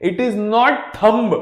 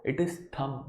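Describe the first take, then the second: First: Thumb slowly said with a b on the end; sounded final B. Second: Thumb said softly, ending on m; silent B. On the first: Teacher rejecting the mistake, slow thumb with b sounded. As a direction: hit the b in thumb. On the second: Teacher correcting it, quiet thumb without b. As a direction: drop low and say thumb as "thum". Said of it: "B is silent". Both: Shown as a demonstration.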